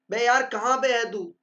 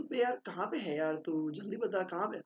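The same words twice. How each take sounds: First: Loud, annoyed call to a friend; angry demo. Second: Softer, gentle asking. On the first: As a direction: snap it like you're fed up. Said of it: "गुस्से में दे रहे हो". (गुस्से में डांटते हुए) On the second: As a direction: ask kindly, no edge at all. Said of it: "soft tone में बोल रहे हो". (नरम, प्यार भरे लहजे में) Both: Shown as a demonstration.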